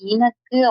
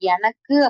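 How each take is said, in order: First: The word begins with an 'i' vowel. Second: The word begins with an 'e' vowel.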